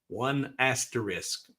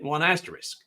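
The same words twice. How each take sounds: First: The phrase is said slowly and drawn out. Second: The phrase is said at a normal pace.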